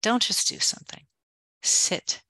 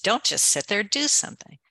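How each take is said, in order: First: "don't just do something. Sit" hushed and pressed, stress on "don't"; corrected emphatic version. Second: Quoting the adage in a higher, mocking lilt; mocking the old adage. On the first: Shown as a demonstration. Speaker corrects the adage for her listener, hushed and insistent. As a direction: lean in on "don't", breathy and firm. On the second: Speaker quotes the old adage to reject it, mock lilt. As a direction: toss off the saying you disagree with. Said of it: "unlike the old adage".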